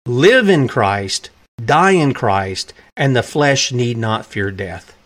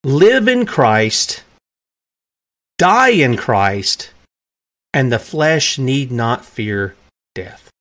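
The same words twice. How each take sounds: First: Slow, heavy repetition of the quote; preacher dwelling on a quote; slow solemn repeat. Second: Slow and weighty, each phrase set apart; measured deathbed proclamation; slow solemn quote. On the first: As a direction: savour each phrase slowly. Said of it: "That is a great quote". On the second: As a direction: let every word of the dying words land slowly. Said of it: "He uttered these piercing words". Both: Shown as a demonstration.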